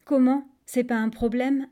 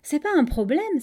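First: «C'est pas un problème» echoed as a question; mildly taken-aback query on «C'est pas un problème»; puzzled question. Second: «C'est pas un problème» breezily dismissed, high and loud; offhand reassurance on «C'est pas un problème»; casual statement. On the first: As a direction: ask «C'est pas un problème» in mild disbelief. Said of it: "a demandé le crocodile". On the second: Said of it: "d'un ton très dégagé". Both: A narrator's reading.

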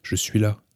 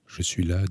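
First: Louder call, raised to carry; a narrated shout, moderately loud; crying out. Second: Said in the usual way. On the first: A narrator's reading. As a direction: call back up from the bottom of a well. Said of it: "et crier de nouveau". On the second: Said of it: "dis-je".

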